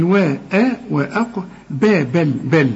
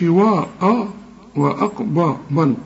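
First: "وا، آ، با، بل" thin and fronted, only qaf heavy; light syllables. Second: "وا، آ، وأقبل" with waw, alif and ba thick and dark; wrong heavy vowels. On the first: Teacher showing the correct syllables, light vowels. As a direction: split "وأقبل" into light "we, e, be, bel". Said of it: "هنقول". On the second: Teacher warning what not to say, heavy syllables. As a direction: darken every a in "وأقبل", like "waw-aw-bol". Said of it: "ما تقولش". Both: Shown as a demonstration.

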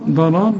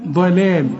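First: ضلال said with a light thin dal, like the name Dalal; wrong thin ضلال. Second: ضلال with a heavy emphatic dad; correct ضلال. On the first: Teacher shows the student the wrong way. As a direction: mispronounce ضلال as دلال on purpose. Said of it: "تنفع ضلال دي". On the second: Teacher gives the student the right sound. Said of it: "هنا هنقول". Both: Shown as a demonstration.

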